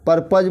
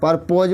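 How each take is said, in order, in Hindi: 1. दूसरे शब्दांश में छोटा, दबा हुआ स्वर है। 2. दूसरे शब्दांश में लंबी 'o' ध्वनि है। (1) "इसको पर्पज बोलते हैं" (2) "पर्पोज मत बोलना"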